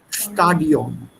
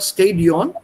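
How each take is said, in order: First: The first vowel sounds like 'ah'. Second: The first vowel sounds like 'ay'. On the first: The speaker calls it right. "sondern Stadion" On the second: The speaker calls it wrong. "It's not Stadion"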